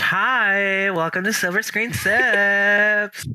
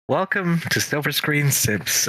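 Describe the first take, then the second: First: It sounds bright, like customer service. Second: It sounds flat and sad.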